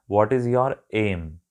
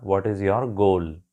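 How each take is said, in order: First: Very slow, each word laid out: What is your aim; slow teaching read of What is your aim; British example question. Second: Very slow, each word laid out: What is your goal; slow teaching read of What is your goal; American example question. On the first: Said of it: "एक British आपसे हमेशा पूछेगा". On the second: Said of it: "but American आपसे पूछेगा". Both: Shown as a demonstration.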